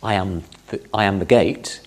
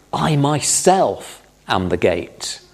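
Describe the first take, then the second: First: Said in the usual way. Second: Slow, weighty stress on "I myself"; solemn emphasis on "myself"; emphatic, slow. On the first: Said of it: "It's not just". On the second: Shown as a demonstration. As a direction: lean hard on "I myself", drawn out. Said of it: "these are very emphatic statements".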